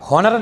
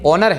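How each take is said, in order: First: The word begins with an h sound. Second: The word begins with a vowel sound. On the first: The speaker calls it wrong. "हॉनर नहीं है ये" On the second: The speaker calls it right. "ऑनर है। तो ऑनर में देखिए ओ आता है"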